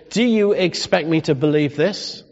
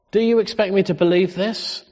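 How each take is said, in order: First: Said in the usual way. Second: Higher, indignant disbelief stressed on you; incredulous retort. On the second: Shown as a demonstration. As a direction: rise on "you" in disbelief as if offended. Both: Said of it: "That's the tone".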